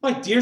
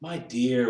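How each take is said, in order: First: High, raised-voice appeal; pleading protest. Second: Gentle, unraised appeal; mild answer. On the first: Bob interrupts his angry wife, high pleading protest. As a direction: break in to check her, pitched high. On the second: Bob answers his wife's tirade, mild and gentle. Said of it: "was Bob's mild answer". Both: A narrator's reading.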